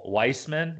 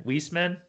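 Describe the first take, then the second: First: Weissman said WICE-man, like "ice"; first vowel as "eye". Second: Weissman said WEESE-man, rising questioningly; first vowel as "ee". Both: Shown as a demonstration. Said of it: "It's not how they say it".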